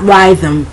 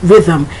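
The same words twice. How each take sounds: First: The first vowel is a long I sound. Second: The first vowel is a short I sound. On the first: The speaker calls it wrong. "it's not rhythm" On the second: The speaker calls it right. "it's rhythm"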